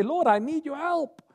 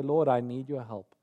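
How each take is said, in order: First: Much higher, urgent cry for help; desperate plea. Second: Humble prayer. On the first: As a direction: cry it up high like you're sinking. Believer pleading with God. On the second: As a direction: say it low and trusting, like a whispered prayer. Believer praying quietly. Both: Acted.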